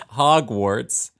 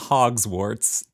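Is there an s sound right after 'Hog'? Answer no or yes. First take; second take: no; yes. First: No s sound follows the first syllable. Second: An s sound follows the first syllable. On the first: The speaker calls it right. "It's Hogwarts" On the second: The speaker calls it wrong. "It's not Hogswarts"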